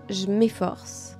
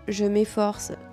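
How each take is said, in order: First: The words are shortened and run together. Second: Each sound is pronounced in full.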